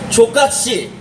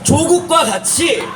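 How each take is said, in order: First: The syllables are run together and clipped. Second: Each syllable is pronounced clearly and separately. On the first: It sounds like a crude insult. The speaker calls it wrong. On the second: It means like Cho Kuk. The speaker calls it right.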